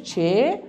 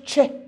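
First: "چه" drawn out as a long "chee/chay"; letter's name. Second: "چه" cut short as a quick "che"; letter's sound. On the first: Teacher naming the letter for pupils, long-vowelled "چه". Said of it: "نامش چه". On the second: Teacher showing the letter's pronunciation, short "چه". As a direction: say "چه" briefly, just the sound. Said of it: "تلفظش چه". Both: Shown as a demonstration.

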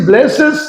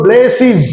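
First: ব্লেসেস ending in "-ses", rising; old "-es" ending. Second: ব্লেসিস ending in "-siz", falling; new "-iz" ending. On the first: Teacher recalling the earlier way, ব্লেসেস with "-ses". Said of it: "আগে বলেছি". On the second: Teacher showing the corrected way, ব্লেসিস with "-siz". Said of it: "এখন বলবো আমরা". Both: Shown as a demonstration.

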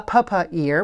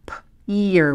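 First: Pa, pa, ear with the p sound said twice as a mistake; wrong double p. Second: P, ear with one clean p sound before ear; single p sound. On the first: Teacher showing students the mistake of saying p twice. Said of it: "We don't say p twice". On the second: Teacher modelling the correct sounds for students. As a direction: say p once, then ear, as one sound per line. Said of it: "they both go on one line and say p". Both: Shown as a demonstration.

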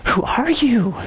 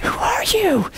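First: Drawn-out stunned question. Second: High, breathy whispered question; awed whisper. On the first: Preacher retelling his awe at Gina's translation, stunned. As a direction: ask it in disbelief. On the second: Preacher repeating his question to Gina, awed whisper. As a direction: whisper it as if dumbstruck. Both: Retold or imitated.

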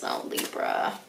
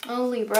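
First: Breathy whisper of Libra's name. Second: Said in the usual way. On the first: Real, not acted. Tarot reader whispering tenderly to Libra viewers.

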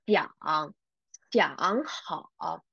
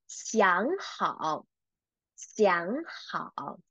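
First: "想" and "好" each dragged into a full low dip; laboured, low "想… 好" without tone change; wrong third tones. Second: "想" rising, then "好" low and dipping; slow model reading, "想" lifted before "好"; correct tone change. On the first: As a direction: show the weird way, "想好" as two low third tones. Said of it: "Shouldn't pronounce as". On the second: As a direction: read "想好" slowly with second tone on "想". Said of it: "let's read these three characters together". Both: Shown as a demonstration.

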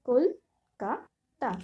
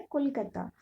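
First: Kolkata very slowly in three separate beats, কল, কা, তা; syllable by syllable. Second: Said in the usual way. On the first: Shown as a demonstration. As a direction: break Kolkata into কল - কা - তা with clear pauses. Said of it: "কলকাতাতে তিনটি syllable আছে". (কলকাতা ধীরে ধীরে তিন ভাগে থেমে থেমে: কল, কা, তা) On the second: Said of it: "কয়টি করে সিলেবল আছে".

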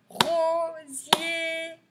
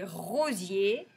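First: Rosier higher, both syllables held long; drawn-out syllables. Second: Said in the usual way. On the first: Shown as a demonstration. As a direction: sing out RO, SIER slowly. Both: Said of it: "deuxième".

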